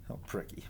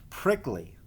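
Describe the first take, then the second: First: A hushed aside saying pricky before correcting it; whispered slip. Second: Said in the usual way. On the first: Real, not acted. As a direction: misread word whispered to herself, pricky.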